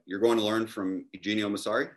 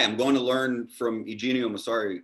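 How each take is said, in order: First: Rising tune on "Eugenio Massari"; incredulous question. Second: Falling tune on "Eugenio Massari"; matter-of-fact statement. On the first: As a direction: echo it back, lifting "Eugenio Massari" into a question. Italians echo his plan, doubting. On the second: States his plan to the Italians. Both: Retold or imitated.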